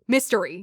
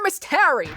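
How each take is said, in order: First: It is run together quickly as one word. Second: It is said slowly as two separate words. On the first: It is the ordinary word, not a name. The speaker calls it wrong. "You wouldn't say mystery to pronounce uh, somebody's name" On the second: It is a person's name. The speaker calls it right. "I have to keep slowing down to say murder Miss Terry"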